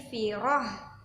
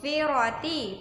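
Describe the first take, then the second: First: The word ends with a breathy h sound. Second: The word ends with a t and vowel. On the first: The speaker calls it right. "tapi firoh" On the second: The speaker calls it wrong. "jadi bukan e, firoti"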